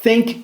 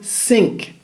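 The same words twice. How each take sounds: First: It begins with a soft breathy th sound. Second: It begins with a hissing s sound. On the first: The speaker calls it right. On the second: The speaker calls it wrong.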